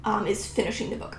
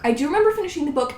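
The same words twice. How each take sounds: First: Said in the usual way. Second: "remember" hit high, said fast; fast, emphatic "I do remember"; stress on remember. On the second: Real, not acted. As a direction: insist on "remember", quick and firm. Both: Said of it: "said twice".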